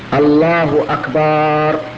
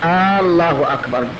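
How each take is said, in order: First: The vowel after the b is drawn out. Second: The opening vowel is drawn out long. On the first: The word becomes a plural meaning drums. "مددت الباء" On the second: It turns the statement into a question. "يمد الهمزة لم يصح"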